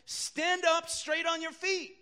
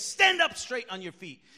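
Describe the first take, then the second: First: Loud, higher, slow command. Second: Louder, punchier command; shout. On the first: Preacher quoting Paul commanding the crippled man, loud. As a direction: call it out so he stands. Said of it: "he said in a very loud voice". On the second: Preacher replaying Paul's shout to the crippled man, loud. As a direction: bark it straight at him. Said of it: "he shouts to him and says". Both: Retold or imitated.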